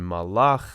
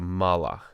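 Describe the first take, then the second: First: The stress is on the last syllable. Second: The stress is on the first syllable. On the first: "the accent goes on the final syllable" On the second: "as opposed to"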